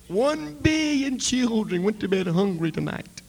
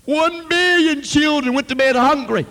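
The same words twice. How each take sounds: First: Rising, loud plea; impassioned cry. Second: Much higher, much louder shout; anguished shout. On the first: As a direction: cry it out to God. Preacher crying out to God. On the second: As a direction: hurl the repeat at heaven. Repeat, preacher crying out louder. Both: Retold or imitated.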